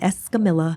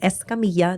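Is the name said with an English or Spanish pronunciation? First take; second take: English; Spanish. First: The name is said with English pronunciation. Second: The name is said with Spanish pronunciation. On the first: The speaker calls it wrong. "not Escamilla" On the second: The speaker calls it right. "My last name was Escamilla"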